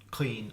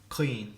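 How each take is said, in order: No difference in how they are said.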